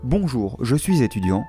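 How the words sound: The pitch falls at the end. The speaker sounds authoritative. The speaker calls it right. "adoptez un ton descendant"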